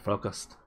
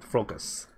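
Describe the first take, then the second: First: The final T sound is pronounced. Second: The final T sound is left silent. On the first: The speaker calls it right. "Oh no, it wasn't silent" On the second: The speaker calls it wrong. "I'm gonna guess the T is silent"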